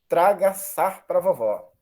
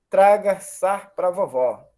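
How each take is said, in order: Both takes have the same delivery.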